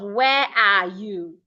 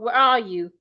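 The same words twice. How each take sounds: First: The word 'are' is said in its full form. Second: The word 'are' is reduced to a weak uh. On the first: The speaker calls it wrong. "Instead of" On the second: The speaker calls it right. "This can be reduced to uh"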